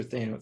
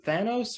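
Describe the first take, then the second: First: "Thano-" with the a of "say"; long-a pronunciation. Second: "Thanos" with the a of "cat"; short-a pronunciation. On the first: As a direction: say "Thano-" as THAY-no, cut short. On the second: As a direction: say "Thanos" as THAN-ohs, short first vowel. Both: Shown as a demonstration. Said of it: "is it Thanos or Thano".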